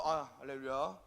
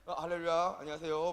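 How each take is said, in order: First: Lightly pious pastor greeting; a hint of a reverent hallelujah; holy phone greeting. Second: Lightly pious greeting, a bit louder; mild reverent hallelujah; holy phone greeting. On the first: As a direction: answer like a devout minister. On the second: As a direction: greet the caller like a devout pastor. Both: Shown as a demonstration. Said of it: "굉장히 성스럽게 전화를 받아요".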